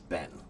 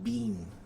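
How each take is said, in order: First: The vowel is short, like in 'Ben'. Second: The vowel is long, like in 'bean'. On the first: "American pronunciation is Ben" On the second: "British people occasionally might pronounce it more like bean"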